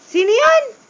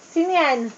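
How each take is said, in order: First: Much higher, louder sing-song question; higher playful question. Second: Said in the usual way. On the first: Acted. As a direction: coax the toddler with a high voice. Asking child, voice rising.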